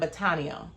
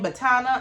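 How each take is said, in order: First: The word ends in an 'ania' sound. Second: The word ends in a plain 'ana' sound. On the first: This follows how the word is spelled. "it looks like you should be saying Botania" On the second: This is how people actually say it. "I think I like Botana better"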